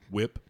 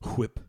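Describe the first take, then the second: First: The word starts with a plain W sound. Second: The word starts with a breathy H sound.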